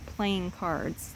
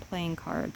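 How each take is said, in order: First: The stress falls on the second word. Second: The stress falls on the first word. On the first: It means the act of playing a card game. "like doing it" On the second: It means the cards themselves, as objects. "or as a noun"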